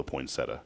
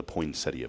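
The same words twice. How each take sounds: First: "poinsettia" said poin-SET-uh, without the ee; pronunciation variant. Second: "poinsettia" said poin-SET-ee-uh, with the ee sounded; pronunciation variant. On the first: Host offers the alternative, "poinsettia" as poin-SET-uh. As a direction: say "poinsettia" in three syllables, ending in uh. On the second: Host allows either way, "poinsettia" as poin-SET-ee-uh. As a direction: say "poinsettia" in four syllables, ending ee-uh. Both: Shown as a demonstration. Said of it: "or however you want to say it".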